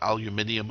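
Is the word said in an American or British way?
British. It is said the British way, alumin-i-um.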